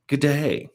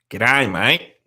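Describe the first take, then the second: First: "G'day" said the posh British way; a prim, upper-class "G'day". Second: "G'day, mate" in a broad Australian accent; broad Aussie g'day. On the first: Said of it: "now it sounds like a very posh g'day". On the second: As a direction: give "G'day, mate" the full Australian sound. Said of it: "I used to have a good g'day". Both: Shown as a demonstration.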